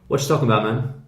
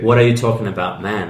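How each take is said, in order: First: The word 'are' is dropped entirely. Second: The word 'are' is clearly pronounced.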